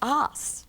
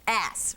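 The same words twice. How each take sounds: First: The word is said in a non-American accent. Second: The word is said in an American accent. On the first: "with my accent" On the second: "I should say it American"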